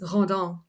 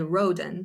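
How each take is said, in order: First: The name is said a fancy, sophisticated-sounding way. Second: The name is said the plain American way. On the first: The owner of the name wants to sound sophisticated. "he always says that he's Rodin because he thinks it's sophisticated" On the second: This is how ordinary people say the name. "when someone pronounces it in America, they say Roden"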